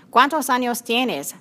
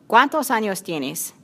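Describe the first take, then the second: First: A touch slower, each word spelled out for a learner; slow it down so she understands; said very slowly. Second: Said in the usual way. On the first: Acted. Susana repeats the question slowly for Ana, mildly slower. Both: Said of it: "repite Susana muy despacio".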